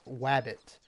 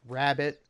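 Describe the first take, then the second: First: The word begins with a W sound. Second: The word begins with a clear R sound. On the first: The speaker calls it wrong. "I fucking said wabbit instead of rabbit" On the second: The speaker calls it right. "I fucking said wabbit instead of rabbit"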